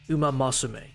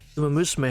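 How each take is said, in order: First: The second word starts with a 'mah' sound. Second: The second word starts with a 'moo' sound. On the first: Someone else said it this way. "He said Uma Masume" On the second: This is the name as it is usually said. "He did not say Uma Musume"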